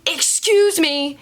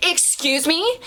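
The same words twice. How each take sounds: First: High, drawn-out yelled call; imitated yell. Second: High mock call with rising end; imitated yell. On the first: Customer calling after the host, mock yell. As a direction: call it out high and stretched, mimicking her. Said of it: "I hear a yelled, a yelling". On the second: Customer calling across the restaurant, mock yell. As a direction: mimic her calling out, high and questioning. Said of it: "I hear it again louder".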